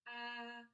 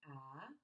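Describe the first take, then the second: First: The pitch stays level and steady. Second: The pitch rises toward the end. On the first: "straight across like you were singing" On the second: "The second tone goes up a little bit"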